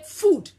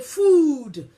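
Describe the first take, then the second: First: The vowel is said as one single sound. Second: The vowel is split into two separate sounds. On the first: The speaker calls it right. "you say food" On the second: The speaker calls it wrong. "you don't say food"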